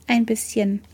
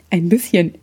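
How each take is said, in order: First: Quiet. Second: Mocking imitation. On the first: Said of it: "erwiderte ich leise". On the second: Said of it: "äffte mich ein Junge mit Zahnlücke nach". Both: A narrator's reading.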